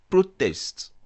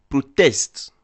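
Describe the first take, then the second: First: The stress is on the first syllable. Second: The stress is on the second syllable. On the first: It is the noun, a demonstration. "je veux signifier le nom manifestation" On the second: It is the verb, to demonstrate. "j'implique le verbe manifester"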